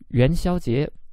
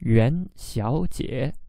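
First: The tones are second, first, then second. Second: The tones are second, third, then third. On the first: It names the Lantern Festival. "second tone, first tone, second tone" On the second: It means a woman called Miss Yuan. "second tone, third tone, third tone"

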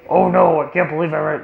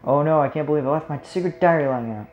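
First: It is said in a put-on Bowser voice. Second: It is said in the speaker's normal voice.

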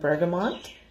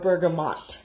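First: An n sound comes before the final t. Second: No n sound comes before the final t. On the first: The speaker calls it wrong. "I always want to say bergamot, but there's no N in there" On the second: The speaker calls it right. "Or bergamot"

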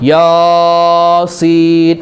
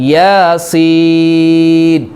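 First: The first syllable is held longest. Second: The second syllable is held longest. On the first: The speaker calls it wrong. "യാസീൻ അങ്ങനെയാണോ? അല്ലല്ലോ ഓതേണ്ടത്" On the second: The speaker calls it right. "പിന്നെയോ യാസീൻ, അതുപോലെ ആമീൻ"

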